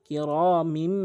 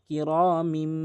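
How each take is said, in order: Both takes have the same delivery.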